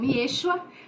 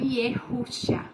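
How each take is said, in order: First: The name is said without a 'hu' syllable. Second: The name is said with a 'hu' syllable. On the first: "nós conhecemos como Yeshua" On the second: "você também pode pronunciar como Yehushua"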